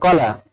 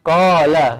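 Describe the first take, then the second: First: The vowel after the q is cut short. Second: The vowel after the q is drawn out long. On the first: The speaker calls it wrong. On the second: The speaker calls it right. "Dibaca panjang dikit"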